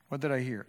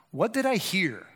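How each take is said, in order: First: What did I hear said lower and softer; quiet repeat. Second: Said in the usual way. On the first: Shown as a demonstration. Preacher repeating his question to himself, quiet. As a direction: drop to a quiet inward question.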